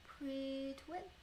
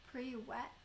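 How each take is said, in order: First: "pre-twit" tentatively sounded out, T in the middle; sounding out "pre-twit" slowly with the T; trying a Russian word. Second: "Pre-wet" said without the T; corrected Russian word. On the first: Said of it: "Do I pronounce that little T". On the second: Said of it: "so don't pronounce the T". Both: Shown as a demonstration.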